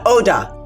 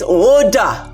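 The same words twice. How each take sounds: First: The first vowel is short. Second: The first vowel is long and drawn out. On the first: The speaker calls it wrong. "my name is not Oda" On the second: The speaker calls it right. "You say it like there are three O's in front of it"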